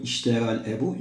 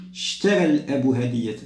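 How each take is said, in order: First: "اشترى" opened with a clear "i", as "ishtara"; the incorrect take, glottal onset on "اشترى"; wrongly sounded hamza. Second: "اشترى" begun straight on a long sh; hamza elided. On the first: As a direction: voice the first hamza of "اشترى الأب". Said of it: "لا نقول اشترى الأب". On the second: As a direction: say "اشترى" as "shtara", no opening vowel. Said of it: "إنما نقول اشترى الأب هدية". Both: Shown as a demonstration.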